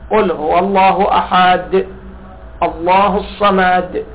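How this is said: There is a pause after the word ahad. The reciter stops at the end of each verse. "فواحد يقف على آخر الآيات"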